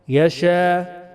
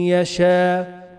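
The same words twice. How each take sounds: The two takes are said the same way.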